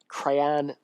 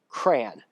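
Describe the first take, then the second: First: The first syllable sounds like 'cray'. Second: The first syllable sounds like 'cran'. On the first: The speaker calls it wrong. "folks who say it like crayon" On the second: The speaker calls it right. "like a cranberry"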